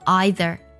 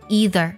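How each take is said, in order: First: It is said with a British pronunciation. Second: It is said with an American pronunciation. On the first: "英式的发音呢读作either" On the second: "在美式的发音当中呢读作了either"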